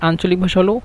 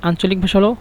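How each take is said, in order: Both takes have the same delivery.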